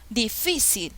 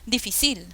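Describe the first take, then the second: First: The stress is on the middle syllable. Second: The stress is on the last syllable. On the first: The speaker calls it right. "Ah, esto suena mejor" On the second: The speaker calls it wrong. "No, tampoco es difícil"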